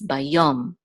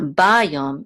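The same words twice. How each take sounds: First: The stress is on the last syllable. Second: The stress is on the first syllable. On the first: The speaker calls it right. "the accent mark is on under the Yud" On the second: The speaker calls it wrong. "it's not Bayom"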